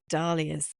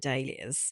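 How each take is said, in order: First: It is said with an American pronunciation. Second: It is said with a British pronunciation.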